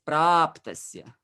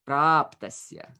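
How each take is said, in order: Both takes have the same delivery.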